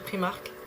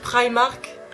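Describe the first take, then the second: First: The name is said with a French pronunciation. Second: The name is said with an English pronunciation. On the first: "tant qu'à le prononcer à la française" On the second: "j'essaye de le prononcer à l'anglaise"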